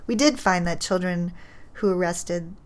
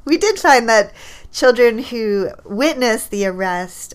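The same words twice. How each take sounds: First: Said in the usual way. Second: "did" stressed, louder, slower correction; emphatic restart. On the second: Real, not acted. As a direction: restate it firmly, leaning on "did".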